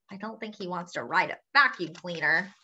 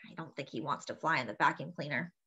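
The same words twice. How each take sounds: First: Said in the usual way. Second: Softer, quicker repeated aside; quiet aside. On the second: Real, not acted. Quiet aside after growl.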